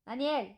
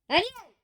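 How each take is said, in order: First: The name is said more quietly. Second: The name is called out loudly.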